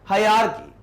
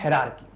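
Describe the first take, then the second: First: The first syllable 'hi' is clearly stressed. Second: It is rushed, without clear stress on 'hi'. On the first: The speaker calls it right. "इसमें focus जाएगा हाई पर" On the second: The speaker calls it wrong. "जल्दी जल्दी मैंने hierarchy पढ़ा"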